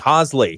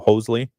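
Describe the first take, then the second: First: The first vowel is a short O, like Bosley. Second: The first vowel is a long O sound. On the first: The speaker calls it right. "So remember Bosley? ... There you go" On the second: The speaker calls it wrong. "Maybe we can make that a long O in that"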